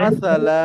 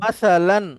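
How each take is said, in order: First: The word ends on a plain vowel. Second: The word ends with an n sound. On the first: The speaker stops at the end of a sentence. "আবার থেমে গেলে" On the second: The speaker keeps going without stopping. "একটা না থেমে এটাকে পড়বো"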